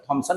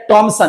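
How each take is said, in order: First: The first consonant is said with a breathy puff. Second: The first consonant is said without a puff.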